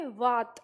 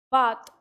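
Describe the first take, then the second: First: वात said with teeth on lower lip, lips apart; open-lipped व for वात. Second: बात said with both lips closed on ब. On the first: Teacher contrasting वात with बात for students. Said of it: "बात और वात में अंतर हो जाता है". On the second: Teacher contrasting बात with वात for students. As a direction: press the lips together for बात. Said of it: "और हम इसका उच्चारण करेंगे वात". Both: Shown as a demonstration.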